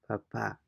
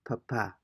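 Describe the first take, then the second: First: The final syllable carries the stress. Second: The same.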